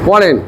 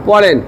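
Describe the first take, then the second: The two takes are said the same way.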